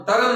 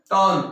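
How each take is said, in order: First: टर्न with the R voiced, like "taran"; wrong sounded R. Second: टर्न with no R, like "taan"; silent R. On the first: Teacher showing the mistake to avoid, टर्न as "taran". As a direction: sound the R in टर्न as its own syllable. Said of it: "नहीं बोलेंगे इसको". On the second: Teacher modelling the correct word, टर्न with silent R. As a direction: drop the R in टर्न, lengthen the vowel. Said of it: "टर्न नहीं बोलेंगे इसको". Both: Shown as a demonstration.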